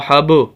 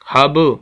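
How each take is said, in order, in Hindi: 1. अंतिम b गूंजती उछाल के साथ छोड़ा जाता है। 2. अंतिम b गूंजती उछाल के साथ छोड़ा जाता है।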